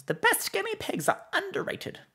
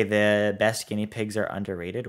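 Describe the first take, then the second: First: Very high-pitched character voice; Mister Whiskers. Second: Said in the usual way. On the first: Acted. Streamer reading out a chat request, in Mister Whiskers voice. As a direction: leap far up into a character voice. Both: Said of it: "In Mister Whisker's voice".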